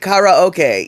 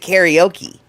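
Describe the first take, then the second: First: It is said with Japanese-style vowels. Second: It is said with common English-style vowels. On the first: This is how it is really pronounced. "yeah, exactly" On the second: This is how most people say it. "But we pronounce it karaoke"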